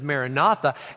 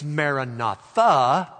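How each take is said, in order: First: The stress falls before the last syllable. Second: The stress falls on the last syllable. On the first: It is an announcement that the Lord comes. "instead of Maranatha" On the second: It is a prayer asking the Lord to come. "you put the accent on the very last syllable"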